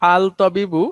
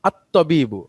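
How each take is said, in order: First: The L of the article is clearly pronounced. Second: The L merges into a doubled T sound. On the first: The speaker calls it wrong. "এটা ভুল না, কিন্তু ম্যাডাম এটা এইভাবে ইউজ হয় না।" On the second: The speaker calls it right. "পড়ার সময় লামটা উচ্চারণ হচ্ছে না"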